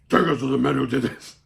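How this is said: It is said in a Batman-like voice.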